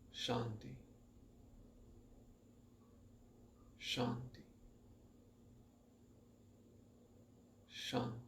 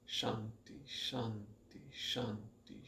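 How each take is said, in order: First: The words are separated by long pauses. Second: The words follow each other with short pauses. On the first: The mind is already calm. "you augment the interval" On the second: The mind is kept busy to calm it down. "accelerating the recitation, not saying it faster, but with less pause"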